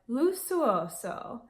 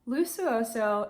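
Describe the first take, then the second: First: It is said with an Italian accent. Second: It is said with an American accent. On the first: "Google Translate said like Lusuoso" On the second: "I'm probably butchering it"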